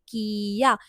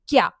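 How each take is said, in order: First: It is said as two separate syllables. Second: It is said as one merged syllable. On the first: "तो ये normal pronunciation होगी" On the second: "की के बाद हम लोगों ने छोटा या लगाया"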